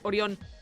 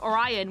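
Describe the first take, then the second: First: The name is said with Spanish pronunciation. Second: The name is said with English pronunciation. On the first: The speaker calls it wrong. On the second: The speaker calls it right.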